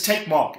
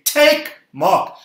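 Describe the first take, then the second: First: Said in the usual way. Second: Loud, high call for the crowd to echo; louder. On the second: Shown as a demonstration. Preacher leads the congregation in repeating a line, louder. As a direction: say it louder, pitched right up. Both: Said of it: "Come on, say it louder".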